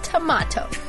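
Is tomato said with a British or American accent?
British. Tomato is said with a British pronunciation. The speaker calls it right. "but tomato"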